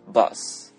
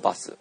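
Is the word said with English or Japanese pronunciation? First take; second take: English; Japanese. First: It is said with English pronunciation. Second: It is said with Japanese pronunciation. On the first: "英語で言うと" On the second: "日本語で言うと"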